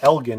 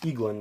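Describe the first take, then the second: First: The name starts with an 'el' sound. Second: The name starts with an 'ee' sound. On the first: The speaker calls it wrong. "I feel like I've been saying it wrong" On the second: The speaker calls it right. "it's Eaglin because it's an eagle"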